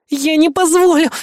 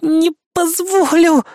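First: High, strained effortful cry; Kay straining to hold his hand, high; straining grunt. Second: High, slow, drawn-out strained cry; Kay holding him, slow and high; straining harder. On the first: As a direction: squeeze it out while straining. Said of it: "прокряхтела Кей". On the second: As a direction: drag it out with all her strength. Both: Acted.

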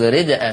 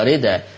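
First: Said in the usual way. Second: "رداء" as rida, hamza dropped; نقل الهمزة. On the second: Shown as a demonstration. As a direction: say "رداء" with no glottal stop, d straight into a. ("رداء" بنقل الهمزة إلى الدال) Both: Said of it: "تقرأ رداء".

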